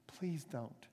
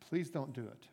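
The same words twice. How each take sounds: First: The plea drops much softer, almost breaking off; softer begging. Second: A soft, earnest plea to the master; begging. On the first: Servant begging the master again, softer and fading. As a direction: let "Please don't." fade to a soft, desperate plea. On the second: Servant on his knees begging the master, soft plea. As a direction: beg him not to do it, quietly. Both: Acted. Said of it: "he begged the master".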